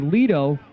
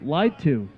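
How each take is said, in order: First: The name starts with an 'ee' vowel, like lido. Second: The name starts with an 'eye' vowel, like lied. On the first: The speaker calls it wrong. "pronouncing it the wrong way" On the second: The speaker calls it right. "Apparently, it's Johnny lied to"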